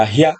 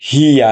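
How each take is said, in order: First: "হিয়া" merged into one short beat, hya; blended syllable. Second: "হিয়া" drawn out as two beats, hi-ya; syllables apart. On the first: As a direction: say "হিয়া" quickly joined as hya. ("হিয়া" জুড়ে ছোট করে, হ্যা) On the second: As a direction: stretch "হিয়া" into separate hi and ya. ("হিয়া" ভেঙে টেনে, হি-ইয়া) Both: Shown as a demonstration. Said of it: "আসবো যুক্ত বর্ণে".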